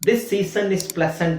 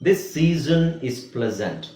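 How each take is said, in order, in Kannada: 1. s ಅಕ್ಷರಗಳನ್ನು ಹಿಸ್ ಶಬ್ದದ s ಆಗಿ ಉಚ್ಚರಿಸಲಾಗುತ್ತದೆ. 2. s ಅಕ್ಷರಗಳನ್ನು ಝೇಂಕಾರದ z ಆಗಿ ಉಚ್ಚರಿಸಲಾಗುತ್ತದೆ.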